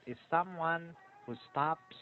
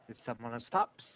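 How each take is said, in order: First: There is a pause after 'someone'. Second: It runs quickly with no pause after 'someone'. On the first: The speaker calls it wrong. "Not is someone who stops. No, don't pause after someone" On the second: The speaker calls it right. "This is very fast"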